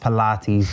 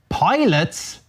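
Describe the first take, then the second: First: It is said as 'pi-LAH-teez', three syllables. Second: It is said like 'pilots', two syllables. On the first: It is the usual name of the exercise. "I know it's Pilates" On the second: It is read the way it is spelled. "it should be called pilots. The way oh. it's written"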